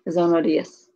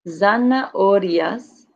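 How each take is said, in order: First: It is said quickly, dropping the second A. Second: Every vowel is said, including the second A.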